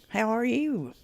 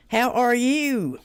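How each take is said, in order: First: Said in the usual way. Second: Higher, louder, drawn-out x0.5 sing-song; playful drawn-out hello to chat; sing-song greeting. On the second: Pretend. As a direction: stretch the greeting out like a tune.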